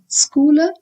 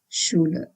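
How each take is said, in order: First: The word does not begin with sh. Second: The word begins with an sh sound. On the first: The speaker calls it wrong. "it's not Schule" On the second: The speaker calls it right. "it has to be pronounced as sh"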